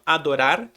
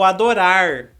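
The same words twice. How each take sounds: First: The final r is a quick tap. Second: The final r is a curled-tongue r. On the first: "O mesmo R que você usou entre o O e o A, você usa no final" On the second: "aquele R caipira"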